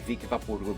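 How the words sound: It is said with a Brazilian Portuguese pronunciation. This is how it was said growing up before learning English. The speaker calls it wrong. "I too obviously would say"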